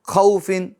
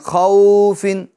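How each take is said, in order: First: The vowel is cut off with a jerk. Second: The vowel is stretched out long. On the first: "और झटका भी नहीं देना, खौफिन ऐसा भी नहीं करना" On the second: "अब इसको खींचना भी नहीं है, खौफिन ऐसा भी नहीं करना है"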